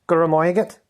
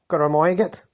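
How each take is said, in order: The two takes are said the same way.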